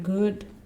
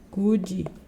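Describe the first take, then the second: First: The word ends cleanly on the final consonant. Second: An extra vowel sound follows the final consonant. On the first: The speaker calls it right. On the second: The speaker calls it wrong.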